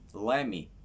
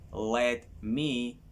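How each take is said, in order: First: The words are run together into a contraction. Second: Each word is said fully and separately.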